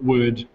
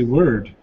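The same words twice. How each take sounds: First: The R sound is dropped. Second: The R sound is pronounced. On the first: "in New Zealand, we don't say the letter R very well" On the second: "because I need to pronounce that R"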